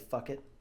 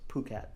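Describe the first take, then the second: First: It sounds like the English phrase 'fuck it'. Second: It does not sound like 'fuck it'. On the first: "so Americans say fuck it" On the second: "I think it's just Phuket"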